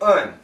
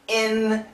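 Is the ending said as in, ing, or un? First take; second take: un; in. First: The ending is a very short schwa plus n. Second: The ending ends in a plain n sound. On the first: "kind of a schwa, very short" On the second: "we can say in"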